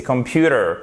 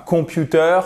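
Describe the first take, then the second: First: Computer with stress on the second syllable; correct English computer. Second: Computer said the French way, stress at the end and no final r; wrong French-style computer. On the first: (computer prononcé à l'anglaise, accent tonique sur pu) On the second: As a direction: computer pronounced like a French word, nasal first vowel. (computer prononcé à la française, accent sur la fin) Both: Shown as a demonstration. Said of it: "C'est pas computer, mais c'est computer".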